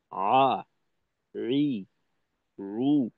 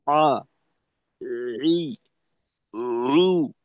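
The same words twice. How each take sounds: First: আ রি রু with light, middle-strength throat pressure; balanced Ain in আ, রি, রু, not squeezed; correct Ain demo. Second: আ ই রু squeezed too hard in the throat; wrong Ain demo. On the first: Teacher showing students the corrected Ain, moderate pressure. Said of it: "করা উচিত ছিল এভাবে". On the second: Teacher showing students the faulty Ain, over-pressed throat. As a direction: overpress the Ain in আ, ই, রু on purpose. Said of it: "তাহলে কিন্তু ভুল হবে". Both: Shown as a demonstration.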